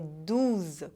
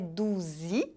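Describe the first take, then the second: First: The word ends with a plain z sound. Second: The word ends with an added 'ee' vowel. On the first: The speaker calls it right. "com som de z" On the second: The speaker calls it wrong. "Não é douze, de doze"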